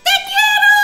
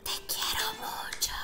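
First: It is said very loudly, for everyone. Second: It is said quietly, like a secret.

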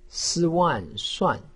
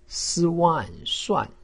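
First: The pitch falls sharply from high. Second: The pitch falls sharply from high.

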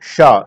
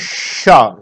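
First: The sh sound is made without a whistling hiss. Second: The sh sound is made with a whistling hiss. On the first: "जब सीटी ना निकले" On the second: "सीटी निकले मुंह से, तो शलजम वाला शा"

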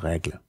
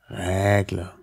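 First: The stressed vowel is short. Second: The stressed vowel is lengthened. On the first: Most speakers say it this way. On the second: A minority of speakers say it this way. "Règle mit langem Ä gesagt. Also Längung des äh, betonten Vokals"

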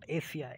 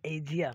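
First: The middle consonant is a voiceless hissing sound. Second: The middle consonant is a voiced 'zh' sound. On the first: The speaker calls it wrong. "not Asia" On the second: The speaker calls it right. "It is pronounced as jet, so it is Asia"

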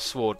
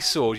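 First: The word is said with a pronounced W. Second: The word is said with a silent W. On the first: The speaker calls it wrong. "It's definitely not sword" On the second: The speaker calls it right. "it's definitely sword. You don't say the W"

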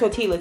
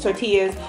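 First: The double l is sounded like an l. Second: The double l is sounded like a y. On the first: The speaker calls it wrong. "It's not tortillas" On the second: The speaker calls it right. "I said it right"

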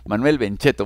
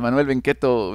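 First: The surname's middle consonant is a ch sound. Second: The surname's middle consonant is a k sound. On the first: The speaker calls it right. "se pronuncia con sonido che" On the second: The speaker calls it wrong. "yo siempre lo, lo leo con pronunciación italiana"

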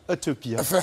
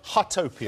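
First: It is said with a French accent. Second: It is said with an English accent.

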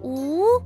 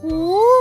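First: It is said at normal volume. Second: It is said most loudly.

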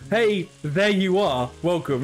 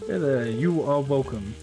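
First: The break comes right after 'hey'. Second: The break comes after 'hey there'.

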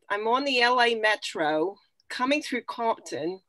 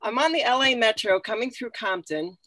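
First: It is read in a New York accent. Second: It is read in her regular accent.

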